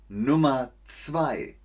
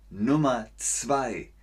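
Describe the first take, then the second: Both takes have the same delivery.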